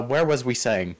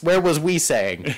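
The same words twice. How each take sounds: First: Deliberately dumb grammar; talking stupid. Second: Slow, dim-witted repeat; talking stupid. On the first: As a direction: play it dim on purpose. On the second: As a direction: say it dumb and slow. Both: Pretend. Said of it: "I have to talk stupid".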